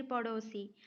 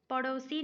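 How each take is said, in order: First: पड़ोसी with a pure "o", "padosi"; correct pronunciation. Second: पड़ोसी with a diphthong, "padausi"; wrong pronunciation. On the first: Teacher offering the correct form, पड़ोसी as "padosi". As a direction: keep the middle vowel of पड़ोसी a simple "o". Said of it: "डो होगा". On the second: Teacher rejecting a misspelling, पड़ोसी said as "padausi". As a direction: widen the middle vowel of पड़ोसी to "au". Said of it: "डऊ नहीं होगा". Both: Shown as a demonstration.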